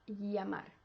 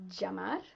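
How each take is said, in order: First: It begins with a soft English Y sound. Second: It begins with a hard English J sound. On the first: "Make it softer with a Y sound in English" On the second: "with a J sound"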